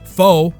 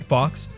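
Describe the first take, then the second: First: The word ends in a vowel, like 'foe'. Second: The word ends in a 'ks' sound, like 'fox'. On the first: The speaker calls it right. "Faux, not Fox" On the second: The speaker calls it wrong. "not Fox"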